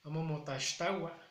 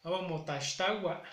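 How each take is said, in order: First: "Amo motaxtagua" repetido, "motashtawa"; pronunciación repetida. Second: "Amo motaxtagua" con "x" como sh, "motashtawa"; mi pronunciación. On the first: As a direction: repite "motaxtagua" con sh. ("Amo motaxtagua" repetido con sh) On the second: ("Amo motaxtagua" dicho "amo motashtawa") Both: Shown as a demonstration. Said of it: "a como yo lo pronuncio es".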